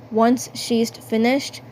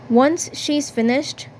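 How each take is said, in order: Both takes have the same delivery.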